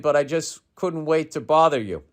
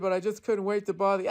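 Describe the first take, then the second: First: It is read in a plain, ordinary voice. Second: It is said in an exaggerated put-on impression voice.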